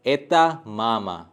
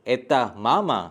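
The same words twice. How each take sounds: First: एता मामा slow and falling; slow falling statement. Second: mama stressed as a question; एता मामा as a question with the weight on mama; question intonation. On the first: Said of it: "दूसरे sentences पे". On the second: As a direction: ask by lifting mama. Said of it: "सिर्फ एक intonation add होगा". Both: Shown as a demonstration.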